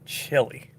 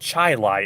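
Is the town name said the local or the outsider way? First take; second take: outsider; local. First: The name is said like the food word. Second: The name is said the local way. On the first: This is how people from elsewhere say the town's name. The speaker calls it wrong. "It's not chili" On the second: This is how people from the area say the town's name. The speaker calls it right. "no, it's Chili"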